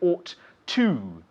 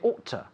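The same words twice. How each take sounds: First: The word 'to' is said in full. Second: The word 'to' is reduced and weak. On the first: The speaker calls it wrong. "we don't say ought to" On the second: The speaker calls it right. "We say ought to. When we speak at a normal speed, the to becomes to"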